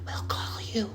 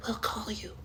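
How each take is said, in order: First: Whispered, high brush-off; hushed mock brush-off whisper; dismissive whisper. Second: Soft, high brush-off; dismissive hush. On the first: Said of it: "she was just like". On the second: Retold or imitated. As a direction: hush it with a phone gesture.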